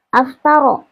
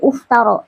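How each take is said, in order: First: The word begins with an a vowel. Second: The word begins with a u vowel. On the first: "laisa aftaro" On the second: "bukan aftaro atau uftaro"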